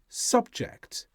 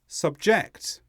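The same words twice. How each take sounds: First: The stress is on the first syllable. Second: The stress is on the second syllable. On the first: It is used as a noun. "When they are noun forms, they tend to be stressed on the first syllable" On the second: It is used as a verb. "Subject becomes subject"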